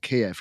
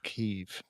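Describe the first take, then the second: First: The name is said in the Russian-style form. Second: The name is said in the Ukrainian-style form. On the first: This is the older, formerly common name. "that's how the Russians used to pronounce it" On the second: This is the officially adopted name. "So they changed it back to"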